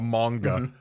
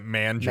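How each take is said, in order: First: The middle consonant is a hard g sound. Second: The middle consonant is a soft j sound.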